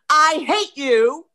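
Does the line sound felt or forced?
forced. The anger is pushed outward and sounds forced. The speaker calls it wrong. "it's not anywhere near as powerful as"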